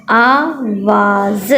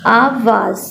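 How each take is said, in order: First: आवाज़ stretched out very slowly, ending on a rise; teacher blending the word for kids. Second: Said in the usual way. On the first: Shown as a demonstration. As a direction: drag out आवाज़ so each sound is heard. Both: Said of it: "पूरा लफ्ज़ क्या बना?".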